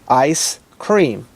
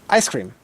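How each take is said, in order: First: The two words are said apart with a break. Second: The two words are said quickly without a break.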